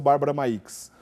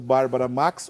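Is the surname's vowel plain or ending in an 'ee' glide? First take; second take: glide; plain. First: The surname's vowel ends in an 'ee' glide. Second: The surname's vowel is plain, with no glide. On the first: "tem que pronunciar o I mesmo" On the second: "não se pronuncia o I"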